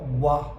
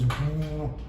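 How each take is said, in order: First: The w sound is followed by an added vowel. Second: The w sound is said alone, without vowel. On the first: The speaker calls it wrong. "not wa" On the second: The speaker calls it right. "this stays as w"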